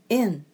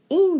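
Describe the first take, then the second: First: The vowel is lax, between 'ee' and 'eh'. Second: The vowel is tense, with lips spread wide. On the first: The speaker calls it right. "ちょっと呆れた感じの口を小さく開けたin です" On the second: The speaker calls it wrong. "in っていうふうに口をね横に広く広げて言うのはやめましょう"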